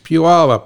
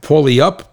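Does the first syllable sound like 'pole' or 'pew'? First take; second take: pew; pole. First: The first syllable sounds like 'pew'. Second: The first syllable sounds like 'pole'. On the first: The speaker calls it right. "Pew, like Pew, it stinks" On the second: The speaker calls it wrong. "I can never pronounce that name right"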